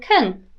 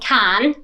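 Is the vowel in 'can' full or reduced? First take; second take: reduced; full. First: The vowel is reduced to a weak schwa. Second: The vowel is full and strong. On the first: The speaker calls it right. "we want can" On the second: The speaker calls it wrong. "we don't want can"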